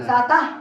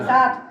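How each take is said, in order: First: An extra vowel follows the final t. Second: The word ends on the t sound. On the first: The speaker calls it wrong. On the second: The speaker calls it right.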